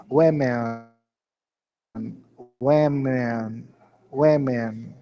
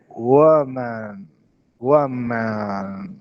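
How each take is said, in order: First: WOMEN with an E sound at the start; changed first vowel. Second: WOMAN stretched, lower, vowels blended toward E. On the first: Teacher modelling the plural women, first vowel changed. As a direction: say women as "wemen", evenly. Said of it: "No início, E". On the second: Teacher modelling the singular woman, stretched blended vowels. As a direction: draw out woman slowly for learners. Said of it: "misturando o com o E". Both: Shown as a demonstration.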